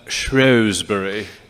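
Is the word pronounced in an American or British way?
British. The name is pronounced the British way.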